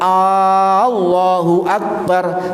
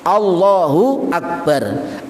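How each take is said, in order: First: The opening vowel is drawn out long. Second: The opening vowel is said short. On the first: It asks a question about who God is. The speaker calls it wrong. "Sebab jenengan ngeten Allahu akbar, siapakah Allah maha besar" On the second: It is a statement that God is great. The speaker calls it right. "Tidak memanjangkan hamzah di depan Allah"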